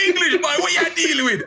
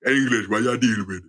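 First: High Caribbean call, laughing through it; mock the local kid's Caribbean greeting while laughing. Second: Put-on deep Caribbean boy. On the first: Local kid calling out to the English visitor, laughing Caribbean accent. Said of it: "you hear them go". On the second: Ten-year-old calling out to the visitor, lower Caribbean voice. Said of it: "with a deeper voice than you".

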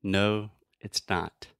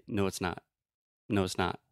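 First: "not" with a hard, released T; aspirated T. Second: "not" ending in a held, silent T; stop T. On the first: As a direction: spit out the final T of "not". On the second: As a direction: swallow the T of "not". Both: Shown as a demonstration. Teacher contrasting two ways to say "not". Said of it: "Do you hear the difference".

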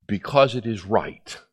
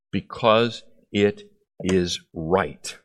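First: Said in the usual way. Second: Slow repeat. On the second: Acted.

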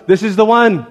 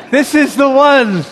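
First: Said in the usual way. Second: "This is the one" higher and drawn out; slow, higher, emphatic declaration on "This is the one"; emphatic repeat. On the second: Acted. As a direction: stretch out "This is the one", pitched up. Servant's realization repeated for emphasis.

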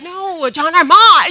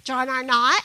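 First: Higher, louder "John R. Mott" with the "Mott" punched and a laugh; correcting his friend at the coffee shop, thrilled and laughing; emphatic correction. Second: Puzzled question. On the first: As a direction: insist on "John R. Mott", bursting with excitement. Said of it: "And I'm like". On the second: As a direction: echo "John R. Mott" back as if you've never heard it. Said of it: "And she's like". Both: Retold or imitated.

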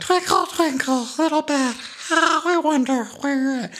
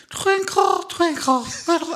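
First: Bubbly drunk impression. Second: High, far-off bubbly tipsy voice; sing-song like a man full of champagne; bubbly drunk impression. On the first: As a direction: croon it like a tipsy champagne drinker. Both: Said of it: "bubbly quality to his voice".

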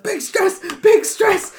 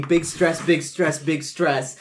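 First: Very high panicked squeal; frantic squeal. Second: Said in the usual way. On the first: Acted. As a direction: squeal it as you dance around. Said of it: "And I was like".

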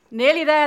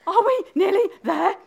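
First: Loud, higher-pitched queenly retort; Queen repeating. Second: High, out-of-breath question; panting. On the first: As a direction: throw the words back loudly, with full breath. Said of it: "the Queen repeated". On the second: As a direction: gasp it out as an exhausted runner. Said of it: "managed to pant at last". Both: Acted.

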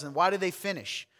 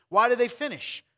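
First: Said in the usual way. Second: "do" punched higher and louder; stress on do. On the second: Shown as a demonstration. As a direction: lean hard on "do" in Why do they finish.

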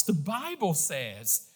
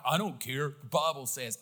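First: Said in the usual way. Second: Curt, dismissive jerk tone; arrogant dismissal. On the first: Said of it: "It is the right response". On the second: Shown as a demonstration. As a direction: brush them off like you don't care. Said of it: "present that in an arrogant manner".

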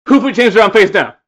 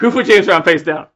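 First: High, loud outraged yell; loud drunk yell. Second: Loud outraged demand; loud drunk yell. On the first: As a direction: roar the question. Repeated rant, louder. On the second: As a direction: yell it at the room. Retold rant again. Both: Retold or imitated.

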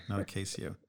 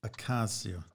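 First: "Ocasio" said softer with ay: o-KAY-sio; mispronunciation repeated. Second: "Ocasio" repeated with ah: o-KAH-sio; corrected pronunciation. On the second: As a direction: try out Ocasio with an open Spanish a. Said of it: "The Spanish A is ah". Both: Shown as a demonstration.

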